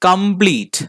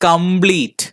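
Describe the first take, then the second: The two takes are said the same way.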